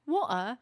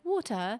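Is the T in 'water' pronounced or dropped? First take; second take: dropped; pronounced. First: The T sound in the middle is dropped. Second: The T sound in the middle is pronounced. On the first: "without the T" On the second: "with the T"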